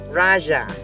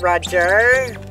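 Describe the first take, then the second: First: The name sounds like raja, the word for king. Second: The name sounds like the English name Roger. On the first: The speaker calls it right. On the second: The speaker calls it wrong. "Not Roger"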